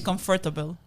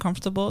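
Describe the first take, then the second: First: The word is said with an extra syllable added. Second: The word is said with its usual syllables. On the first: "They say comfortable" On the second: "instead of saying comfortable"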